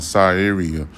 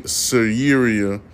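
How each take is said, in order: First: Syria said slowly and carefully as sigh-eria; deliberately careful sigh-eria for Syria. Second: Syria said quickly as suh-ria, stumbling; half-swallowed Syria, said suh-ria; fumbled Syria. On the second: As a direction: trip over the name Syria as suh-ria. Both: Shown as a demonstration. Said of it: "I shouldn't know how to pronounce".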